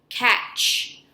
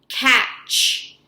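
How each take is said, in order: No difference in how they are said.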